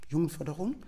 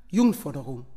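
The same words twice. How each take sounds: First: "Jugendförderung?" as a question, rising at the end; fragender Gedanke. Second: Said in the usual way. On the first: Retold or imitated. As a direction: echo "Jugendförderung?" as a wondering question, pitch lifting on the ending. ("Jugendförderung?" nachdenklich fragend, am Ende steigend) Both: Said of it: "In meinem Kopf dachte ich".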